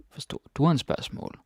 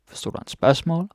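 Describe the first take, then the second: First: "du" lifted higher and stressed, end falling. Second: "spørgsmål" stressed, high and rising; stress moved to SPØRGSMÅL. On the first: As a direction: hit "du", as in did YOU. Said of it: "I put this stress on du". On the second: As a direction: lift "spørgsmål" as the question's point. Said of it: "you can change the stress". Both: Shown as a demonstration.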